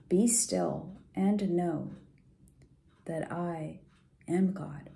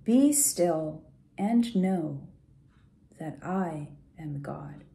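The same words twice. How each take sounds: The two takes are said the same way.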